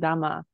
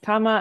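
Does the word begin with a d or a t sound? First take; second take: d; t. First: The word begins with a voiced d sound. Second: The word begins with a voiceless t sound. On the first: The word is the second part of a compound. "it would be pronounced as dama for rendaku" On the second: The word stands alone. "can you read this word for me again?"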